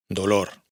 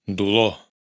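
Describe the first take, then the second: First: Said in the usual way. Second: "dolor" dicho "duló", con u y sin erre; catalán sin erre final. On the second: Shown as a demonstration. ("dolor" catalán, erre muda) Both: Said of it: "Tampoco se pronuncia en".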